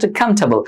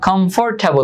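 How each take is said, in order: First: The middle 'for' syllable is dropped. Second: The middle 'for' syllable is fully pronounced. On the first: The speaker calls it right. "এখানে ফরের উচ্চারণটা হয় না" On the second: The speaker calls it wrong. "কমফোর্টেবল না"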